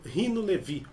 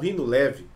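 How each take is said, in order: First: The surname ends with an 'ee' vowel. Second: The surname ends with an 'eh' vowel. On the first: "outros de Levi" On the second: "alguns chamam de Leve"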